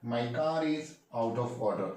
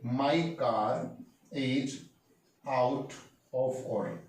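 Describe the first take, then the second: First: Slow, even teacher repeat of the sentence; slow clear repeat. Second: Each word set apart with pauses; slow, spaced-out model sentence. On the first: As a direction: say it slowly once more for the class. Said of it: "क्या बोलेंगे guys?". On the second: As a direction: lay it out word by word for learners. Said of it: "तो बोलेंगे". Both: Shown as a demonstration.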